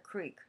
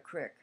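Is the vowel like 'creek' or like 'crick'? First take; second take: creek; crick. First: It is said as standard 'creek'. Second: It is said the Pennsylvania way, as 'crick'.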